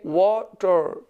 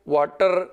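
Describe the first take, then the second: First: The stress is on the first syllable. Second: The stress is on the second syllable. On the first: The speaker calls it right. "तो वा के ऊपर stress fall करता है" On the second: The speaker calls it wrong. "इसको ऐसे नहीं पढ़ सकते"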